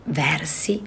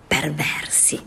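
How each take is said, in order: First: Said in the usual way. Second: Whispered title, breathy and hushed. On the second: Shown as a demonstration. Reader whispering the title to listeners. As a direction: whisper it like a secret.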